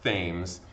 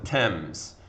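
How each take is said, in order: First: It starts with a 'th' sound, as spelled. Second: It starts with a plain 't' sound. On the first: The speaker calls it wrong. "It's not pronounced Thames" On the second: The speaker calls it right. "It's pronounced the Thames"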